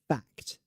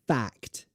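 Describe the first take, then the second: First: The vowel sounds like the one in cat. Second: The vowel sounds like the one in cat.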